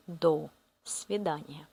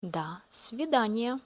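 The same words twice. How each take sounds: First: До свидания with до said as "do", a full round o; до свидания mispronounced as written, до as "do"; wrong pronunciation. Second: До свидания with до said as "da", an open a sound; до свидания spoken the right way, до as "da"; correct Russian pronunciation. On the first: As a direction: say до with a clear "o" like it's spelt. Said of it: "We don't say". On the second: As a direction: say до as "da", not "do". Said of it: "We pronounce а". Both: Shown as a demonstration.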